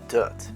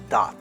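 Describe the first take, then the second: First: The vowel is a relaxed 'er' sound. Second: The vowel is an open 'o' sound. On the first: The speaker calls it right. "The correct pronunciation is dirt" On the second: The speaker calls it wrong. "how do some people pronounce this?"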